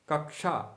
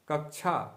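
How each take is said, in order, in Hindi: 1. इस संयुक्त अक्षर का उच्चारण ढीले, रोज़मर्रा के तरीके से होता है। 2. इस संयुक्त अक्षर का उच्चारण ढीले, रोज़मर्रा के तरीके से होता है।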